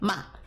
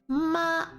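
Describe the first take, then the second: First: The pitch falls sharply from high. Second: The pitch stays high and level. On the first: "Fourth tone going down" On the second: "first tone flat"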